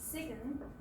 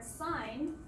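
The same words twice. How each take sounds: First: The G is pronounced. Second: The G is silent. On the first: The speaker calls it wrong. "we don't pronounce it as sign" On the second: The speaker calls it right. "the second time where it becomes silent"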